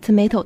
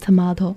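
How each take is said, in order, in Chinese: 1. 这个单词是用美式口音说的。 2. 这个单词是用英式口音说的。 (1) "在美国你要说tomato" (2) "我就会直接就说成tomato"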